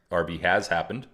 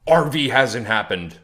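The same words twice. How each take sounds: First: "has" stressed with a rise; firm correction. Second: Mock-read viewer comment "R V hasn't happened"; reading a chat comment. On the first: Real, not acted. Correcting a doubting viewer, leaning on "has". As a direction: lean on "has" to overrule the comment. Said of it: "I'm here to tell you that that is incorrect". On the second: Reading out a doubting viewer's comment in a put-on voice. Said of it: "here's this one over here".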